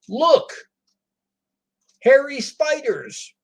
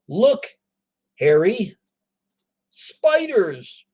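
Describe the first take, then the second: First: Hairy and spiders run together without pause. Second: A pause separates the name from spiders. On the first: The spiders being pointed out are hairy. "We're talking about spiders that are very hairy" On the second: Someone named Harry is told to look at spiders. "We're looking at spiders"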